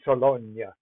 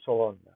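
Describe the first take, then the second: First: The name is pronounced the Italian way. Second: The name is pronounced the French way. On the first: The speaker calls it wrong. "I keep pronouncing it in the Italian way" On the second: The speaker calls it right. "So forgive me, Sologna, I should say"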